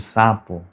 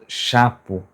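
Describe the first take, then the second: First: The word begins with an S sound. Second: The word begins with a SH sound. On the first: The target adult pronunciation. The speaker calls it right. "em vez de sapo" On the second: A child's swap of a nearby sound. The speaker calls it wrong. "quando ela fala chapo"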